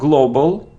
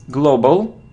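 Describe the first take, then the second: First: The first vowel is not a long O. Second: The first vowel is a long O. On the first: The speaker calls it wrong. "It isn't global" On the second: The speaker calls it right. "it's O"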